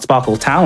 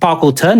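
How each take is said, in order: First: The name ends with a 'town' sound. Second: The name ends with a short 'ton' sound. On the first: The speaker calls it wrong. "like I've been mispronouncing it as a kid. There's no W" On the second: The speaker calls it right. "it's Sparkleton"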